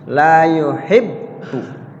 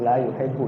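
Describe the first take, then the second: First: The doubled consonant is stressed and held two beats. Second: The doubled consonant is slurred vaguely and lazily. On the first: The speaker calls it right. "ada penekanan di bak pertama dan ditahan bareng bareng bareng dua ketukan" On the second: The speaker calls it wrong. "jangan dibaca agak sedikit samar-samar, malas-malas"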